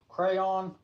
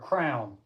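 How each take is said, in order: First: The word is said with two syllables. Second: The word is said with one syllable. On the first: This is the speaker's own way. "I say crayon" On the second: This is how some other people say it. "Some people say crown"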